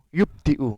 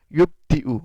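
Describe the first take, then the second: Both takes have the same delivery.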